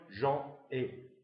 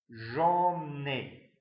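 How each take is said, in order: First: The n sound does not link into the vowel. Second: The n sound links into the following vowel. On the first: The speaker calls it wrong. "On ne pourrait pas dire" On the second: The speaker calls it right. "liaison donc obligatoire"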